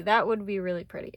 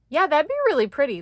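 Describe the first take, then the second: First: Said in the usual way. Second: Quick, loud, high burst of delight; sudden excited exclamation; excited gush. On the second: Real, not acted. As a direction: blurt it out thrilled. Gushing over a card layout.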